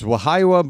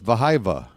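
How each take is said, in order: First: The name starts with a W sound. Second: The name starts with a V sound. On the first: "It's a W" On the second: "pronounce it like a V"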